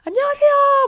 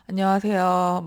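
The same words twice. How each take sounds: First: The greeting sounds bright, lively and full of energy. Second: The greeting sounds flat, tired and low in energy. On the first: The person feels confident and full of passion. "막 이렇게 목소리 톤부터 달라지고" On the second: The person feels stuck and unenthusiastic about life. "막 이렇게 출근했어요. 월요일 아침 마냥"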